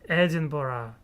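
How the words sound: The name is said with English-style pronunciation. The speaker calls it right. "In English, it is different"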